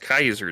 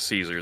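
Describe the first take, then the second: First: The name is said the old Latin way. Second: The name is said the usual English way. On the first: The speaker calls it right. "they go for that old Latin pronunciation too" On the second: The speaker calls it wrong. "It's not Julius Caesar Zeppeli"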